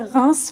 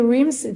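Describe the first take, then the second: First: The name is said with a French pronunciation. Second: The name is said with an anglicized pronunciation. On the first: This is how the locals say it. The speaker calls it right. "So we say Reims" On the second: This is how outsiders say it. The speaker calls it wrong. "we do not say Reims"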